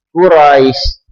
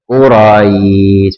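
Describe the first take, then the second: First: The final vowel is cut short. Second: The final vowel is held long. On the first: The speaker calls it wrong. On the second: The speaker calls it right.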